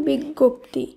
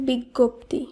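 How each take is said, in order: The two takes are said the same way.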